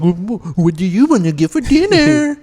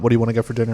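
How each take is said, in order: First: It is said in a silly mocking voice. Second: It is said in a normal voice.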